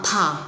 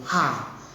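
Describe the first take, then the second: First: It starts with an aspirated t sound. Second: The t is dropped, giving an h sound. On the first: This is the standard pronunciation. The speaker calls it right. "kita ngikutin standar dari Cina sama th" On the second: This is an old local dialect pronunciation. The speaker calls it wrong. "mereka tuh nyebutnya bukan ta, tapi nyebutnya ha"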